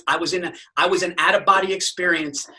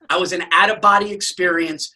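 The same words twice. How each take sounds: First: Said in the usual way. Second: Out-of-body said louder, with a hard punch; stress on out-of-body. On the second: Retold or imitated.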